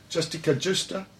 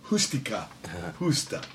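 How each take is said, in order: First: The words begin with an English J sound. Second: The words begin with an H sound. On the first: The speaker calls it wrong. "Well, I should say it right" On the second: The speaker calls it right. "J's or H's"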